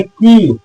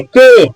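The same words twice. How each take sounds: First: की with a long ee vowel; correct "key", as kee. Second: के rhyming with "day", higher and louder; wrong "key", as kay. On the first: Teacher giving the correct reading, long-ee की. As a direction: say की to rhyme with "see", drawn out. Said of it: "इसको पढ़ते हैं की". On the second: Teacher voicing the wrong guess, loud higher के like kay. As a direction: punch out के with an ay vowel. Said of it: "के नहीं है". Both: Shown as a demonstration.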